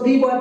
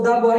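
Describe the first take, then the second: First: The word 'the' is said with a long 'ee'. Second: The word 'the' is said with a short 'uh'. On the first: The speaker calls it wrong. "पढ़ोगे तो गलत हो जाएगा" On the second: The speaker calls it right. "इसको द boy ही पढ़ना पड़ेगा"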